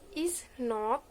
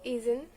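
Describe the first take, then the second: First: Both words are said in full. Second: The words are merged into one short form. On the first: "is not become" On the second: "become isn't"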